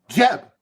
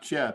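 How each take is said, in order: First: The name is said with loud excitement. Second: The name is said flatly, without excitement.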